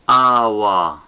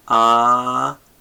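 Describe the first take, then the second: First: Said in the usual way. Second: "Awa" as a long held "a", pause, then "wa"; syllable-by-syllable teaching demo; split into syllables. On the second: Shown as a demonstration. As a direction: break "Awa" in two. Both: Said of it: "Look at the syllables".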